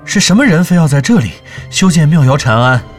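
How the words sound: The stress falls on the words for who. The question asks who built it. The speaker calls it wrong. "我的重音不在什么人上面"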